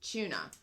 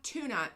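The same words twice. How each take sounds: First: The word begins with a ch sound. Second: The word begins with a plain t sound. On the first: This is the Irish way of saying it. The speaker calls it right. "there's a C H sound for the for the T sound in Ireland" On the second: This is the American way of saying it. The speaker calls it wrong. "And not tuna"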